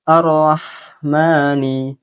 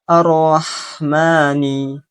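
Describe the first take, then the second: No difference in how they are said.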